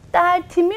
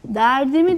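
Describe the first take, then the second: First: The consonant in the middle is t. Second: The consonant in the middle is d. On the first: The speaker calls it wrong. "Dertimi mi deriz? Hayır, böyle kullanmayız" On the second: The speaker calls it right. "T'miz arkadaşlar D'ye dönmüş"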